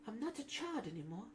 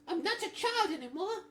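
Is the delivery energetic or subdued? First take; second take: subdued; energetic. First: The line is said with low, subdued energy. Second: The line is said with high, lively energy.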